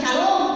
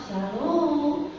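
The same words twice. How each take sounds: First: Shalom barked, higher and louder; blunt Sulawesi greeting. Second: Exaggerated gentle Javanese-style Shalom; over-the-top soft greeting. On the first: Retold or imitated. Sulawesi pastor greeting guests, blunt near-shout. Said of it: "orang bilang, "Tuhan, di Sulawesi mungkin lagi berantem". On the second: Pastor mimicking Javanese gentleness, hammed-up soft greeting. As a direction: overdo the softness. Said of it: "Waduh, lebay banget".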